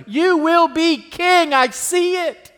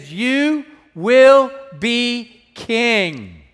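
First: Higher, slowed, fervent declaration of faith; Jonathan encouraging. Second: Very slow, drawn-out prophetic declaration; Jonathan declaring. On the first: Jonathan assuring David of his future, high and fervent. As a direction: lift it up and lean on every word. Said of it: "futuristically to us". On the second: Jonathan telling David he will be king, slow and solemn. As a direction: stretch each word like a solemn promise. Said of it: "He said". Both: Acted.

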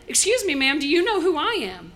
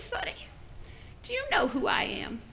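First: Usher's urgent question, fully voiced; insistent, voiced challenge. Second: Put-on whispery old-woman voice; very soft, high elderly challenge; little old lady. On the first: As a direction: ask the old lady plainly and pointedly. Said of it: "He goes right up to her". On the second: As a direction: whisper it as an indignant granny. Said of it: "little old lady".

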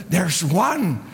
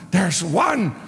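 The two takes are said the same way.

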